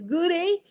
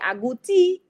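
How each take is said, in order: First: It is said in a British accent. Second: It is said in a Dominican accent. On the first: "in London, they say ... I don't know if my British accent was really good" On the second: "If they're in Dominica, they say"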